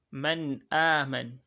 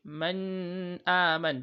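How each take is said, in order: First: Slow, louder "Man aman", the n let go into a long "a"; nun without emphasis. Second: Very slow, higher "Man aman" with the n of "Man" held long; wrong emphasised nun. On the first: Teacher modelling idhar, unemphasised n in "Man aman". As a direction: stretch the vowel of "aman", never the n of "Man". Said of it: "without laying emphasis on the nun". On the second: Teacher showing students the mistake, over-held n in "Man aman". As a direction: drag out the n before "aman". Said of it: "Do not recite like that". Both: Shown as a demonstration.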